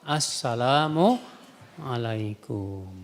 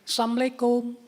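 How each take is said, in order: First: The 'la' syllable is clearly pronounced in 'assalamu'. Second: The 'la' syllable is dropped, sounding like 'assamu'. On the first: It wishes peace. The speaker calls it right. "mengucapkan salamnya yang benar" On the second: It wishes death instead of peace. The speaker calls it wrong. "Ada lagi yang salamnya gini"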